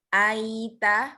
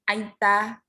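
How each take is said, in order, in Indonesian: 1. Kata itu mengalir lembut tanpa jeda. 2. Kata itu diucapkan terlalu cepat. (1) "lembut ya" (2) "itu juga terlalu cepat"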